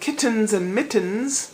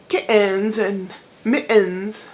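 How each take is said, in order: First: The t sounds in the words are clearly pronounced. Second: The t sounds in the words are swallowed. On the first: The speaker calls it right. "instead of" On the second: The speaker calls it wrong. "Enough of the"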